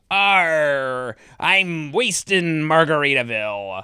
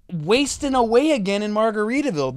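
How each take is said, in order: First: Imitated slow pirate attempt; drawn-out mock pirate. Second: Higher, insistent correction; exasperated correction. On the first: Host mimicking contestants flubbing the lyric, slow pirate voice. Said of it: "people would use the pirate voice". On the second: Retold or imitated. Host acting out correcting the contestant, exasperated and insistent. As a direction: spell out the right lyric. Acts out correcting the flubbed lyric.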